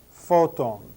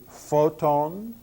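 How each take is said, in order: First: The stress falls on the first syllable. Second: The stress falls on the last syllable. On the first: The speaker calls it right. "I would put the accent where it belongs" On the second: The speaker calls it wrong. "I'm trying to emphasize the ending"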